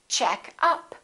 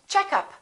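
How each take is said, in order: First: The stress is on the second part. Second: The stress is on the first part. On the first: It is a phrasal verb. "we stress the second part" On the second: It is a noun. "we stress the first part"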